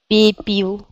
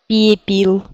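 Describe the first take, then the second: No difference in how they are said.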